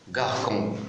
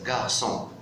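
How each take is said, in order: First: The middle consonant is a hard K sound. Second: The middle consonant is an S sound. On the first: The speaker calls it wrong. "pour éviter de dire gar, garcon" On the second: The speaker calls it right. "je mets la C D pour prononcer S"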